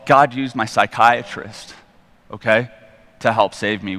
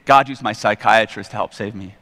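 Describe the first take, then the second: First: God used my psychiatrist said slowly, leaning hard on God; slow down and stress God in God used my psychiatrist; slow emphatic statement. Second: Said in the usual way. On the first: Shown as a demonstration. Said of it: "repeated for emphasis". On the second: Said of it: "repeated line".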